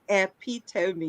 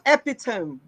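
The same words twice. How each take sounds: First: It is said with four syllables, ending in 'tuh-mee'. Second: It is said with three syllables, ending like 'tome'. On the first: The speaker calls it right. "No, it is epitome" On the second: The speaker calls it wrong. "It's not epitome, ladies and gentlemen, which many of you say"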